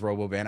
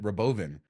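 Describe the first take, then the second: First: The last syllable is said like 'van'. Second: The last syllable is said like 'vin'. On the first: This is how the speaker assumed it was said. The speaker calls it wrong. "I thought it was Robovan" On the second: This is how its creator says it. The speaker calls it right. "he called it Robovin"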